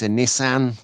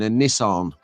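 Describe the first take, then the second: First: It is said in a northwest English accent. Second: It is said in an American accent. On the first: "if you're from uh, the northwest" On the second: "in the American pron- pronunciation"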